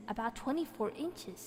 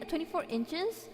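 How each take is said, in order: First: Said in the usual way. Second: Higher, slow, rising "Twenty-four inches"; questioning the number; puzzled rising repeat; incredulous question. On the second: Real, not acted. Doubting the size just read.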